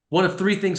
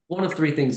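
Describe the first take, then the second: First: It sounds stiff, tense and commanding. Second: It sounds relaxed, easy and conversational. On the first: The listener feels pressured and on edge. The speaker calls it wrong. "I'm already tense, and this this is like boot camp" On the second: The listener feels at ease in a comfortable talk. The speaker calls it right. "it's just it's conversational"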